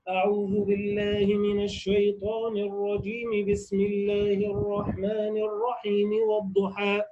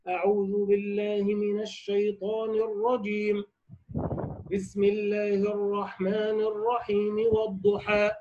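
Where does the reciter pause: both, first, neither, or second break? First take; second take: neither; first. First: All phrases run together without any pause. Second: A pause comes after the first phrase only. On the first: "وصل الجميع" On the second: "قطع الأول وهو الاستعاذة، ووصل الثاني وهو البسملة بأول السورة"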